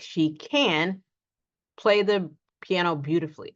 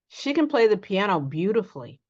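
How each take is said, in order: First: The word 'can' is said fully and clearly. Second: The word 'can' is said quickly and reduced. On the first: The speaker calls it wrong. "We do not say ... unless we're emphasizing it" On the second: The speaker calls it right. "Notice we do not say the full can"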